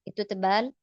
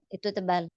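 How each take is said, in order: Both takes have the same delivery.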